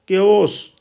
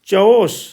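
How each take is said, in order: First: The word begins with a k sound. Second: The word begins with a ch sound. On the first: "यहाँ पर हम के बोलते हैं" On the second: "कहीं पर चौस"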